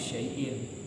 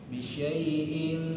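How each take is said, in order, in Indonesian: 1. Bunyi n di akhir pendek dan biasa saja. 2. Bunyi n di akhir didengungkan dan ditahan panjang. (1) "kalau normal itu bisyai'in" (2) "dibacanya dengan cara idgham bi gunnah, dia melebur... ditahan tiga harokat"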